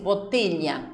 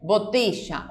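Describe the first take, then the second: First: The 'll' is said like a soft ly. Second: The 'll' is said like an English sh. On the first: This is how speakers in some other countries say it. "como si fuera la L H" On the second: This is how speakers from the River Plate region say it. "Como de la palabra show"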